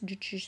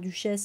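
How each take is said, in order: First: The name is pronounced the English way. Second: The name is pronounced the French way. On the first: "je ne sais pas comment ça se prononce" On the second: "on va la prononcer à la française"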